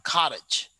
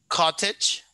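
First: The word is said in everyday American pronunciation. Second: The word is said in the standard pronunciation. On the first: "but we normally pronounce like cottage, but that's here in America" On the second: "the standard way to pronounce is going to be like cottage is the standard one"

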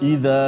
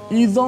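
First: The long vowel comes openly from the throat and mouth. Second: The long vowel comes out through the nose. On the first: The speaker calls it right. "suara itu datang daripada disebut al-jawf" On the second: The speaker calls it wrong. "tak boleh kita baca idza, oh, keluar daripada hidung"

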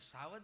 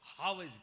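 First: The word begins with an s sound. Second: The word begins with an h sound. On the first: The speaker calls it wrong. "સાવજ ન કહેવાય" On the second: The speaker calls it right. "હાવજ કહેવાય"

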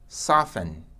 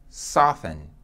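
The two takes are said the same way.

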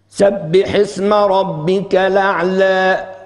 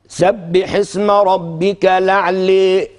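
First: The final vowel is slightly shifted toward 'e'. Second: The final vowel is shifted strongly toward 'e'. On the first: "هذا بالتقليل" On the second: "دي إمالة"

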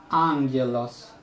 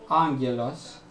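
No difference in how they are said.

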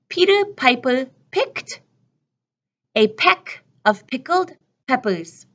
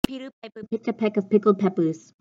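First: The sentence is said at a slow pace. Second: The sentence is said at a fast pace. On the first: "Let me say it slowly for you" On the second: "then we'll put it together really, really fast again"

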